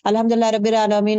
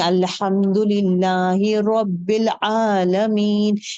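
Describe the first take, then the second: First: It is recited quickly and hurriedly. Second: It is recited slowly and clearly.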